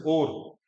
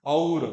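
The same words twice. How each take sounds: First: "और" flattened to or; casual Hindi vowel. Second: "और" pronounced a-u-ra, loudly; correct full diphthong. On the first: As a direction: say "और" with one open o. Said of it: "हम हिंदी में क्या कर देते हैं". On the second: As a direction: give "और" its full au glide. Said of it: "बोलना क्या चाहिए". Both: Shown as a demonstration.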